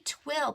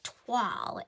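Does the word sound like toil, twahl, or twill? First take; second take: twill; twahl. First: The vowel sounds like the one in 'will'. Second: The vowel sounds like the one in 'wall'. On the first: The speaker calls it wrong. "I don't think it's twill" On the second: The speaker calls it right. "as if it were written T W A L L"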